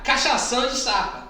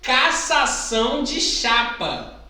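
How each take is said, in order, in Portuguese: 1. É dito ainda mais rápido, com um som enrolado. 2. É dito em um ritmo de fala normal.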